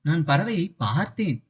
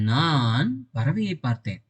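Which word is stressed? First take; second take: பார்த்தேன்; நான். First: The stress falls on the word பார்த்தேன். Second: The stress falls on the word நான். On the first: I only looked at the bird, yet it flew away. "இந்த பார்த்தேன்னு அழுத்துறேன்" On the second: It was I, and no one else, who saw the bird. "அப்ப பறவையை பார்த்தது யாரு? நான்"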